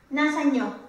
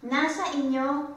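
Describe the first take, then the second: First: The vowel is dropped and merged into nasa. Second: The full form inyo is pronounced with its vowel. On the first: The speaker calls it wrong. "Hindi pwedeng sabihin" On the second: The speaker calls it right. "Kaya lagi lang siyang inyo"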